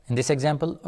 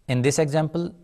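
The two takes are said the same way.

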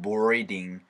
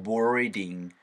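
First: It is said with English vowels and an r. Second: It is said with English vowels and an r.

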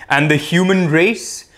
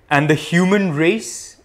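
The two takes are said the same way.

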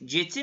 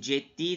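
First: The middle consonant is short and single. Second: The d sound is long and doubled. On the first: The speaker calls it wrong. "Ceti mi deriz?" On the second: The speaker calls it right. "Ceddi dedik bir D daha türedi"

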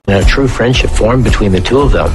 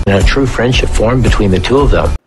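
Both takes have the same delivery.

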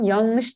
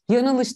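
First: The vowel after the n is dropped. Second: The vowel after the n is kept. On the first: The speaker calls it right. "Yanlış diyorum" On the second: The speaker calls it wrong. "yanılış demiyorum"

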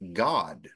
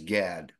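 First: The vowel sounds like the one in 'father'. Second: The vowel sounds like the one in 'cat'. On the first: The speaker calls it right. "It's pronounced God" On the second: The speaker calls it wrong. "it's not pronounced as Gad"

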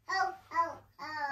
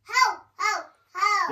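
First: It is said quietly, with little force. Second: It is said loudly, from the belly.

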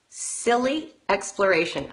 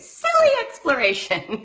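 First: It is said in a plain, ordinary way. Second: It is said in a silly, playful way.

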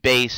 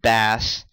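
First: The name is said with the vowel of 'face'. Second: The name is said with the vowel of 'mass'. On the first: The speaker calls it right. "I've learned to actually call him Bass" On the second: The speaker calls it wrong. "and not Bass"

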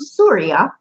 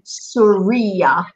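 First: The y sound is short and single. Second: The y sound is doubled and held longer. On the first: It names the country. "the country name Surya" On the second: It describes a female as Syrian. "You got the check on it, so it gives it a little bit of added emphasis"

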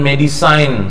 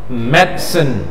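First: The last syllable is said like 'sign'. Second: The word is said quickly with a short ending. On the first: The speaker calls it wrong. "Walau mentang-mentang cine jadi sign" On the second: The speaker calls it right. "cepat kan?"

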